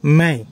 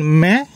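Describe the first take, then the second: First: ম্যায় said with a gliding "myay" ending; teacher demoing ম্যায় with its glide; gliding Hindi diphthong. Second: ম্যা said short and open, like "mya"; teacher demoing ম্যা as one short syllable; short Hindi vowel. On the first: Teacher shows students the two-matra sound, clearly. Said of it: "দ্বিতীয়টির উচ্চারণ ম্যায়". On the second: Teacher shows students the single-matra sound, clearly. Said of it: "প্রথমটির উচ্চারণ ম্যা". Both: Shown as a demonstration.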